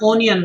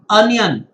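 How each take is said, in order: First: The first vowel sounds like 'oh'. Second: The first vowel sounds like 'uh'. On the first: The speaker calls it wrong. "It's not onion" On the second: The speaker calls it right. "It's just like onion"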